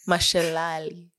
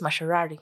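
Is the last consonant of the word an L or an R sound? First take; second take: L; R. First: The last consonant is an L sound. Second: The last consonant is an R sound. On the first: "I'll say it with a wang" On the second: "guys from our region. L and R is a problem. So it's mashalari"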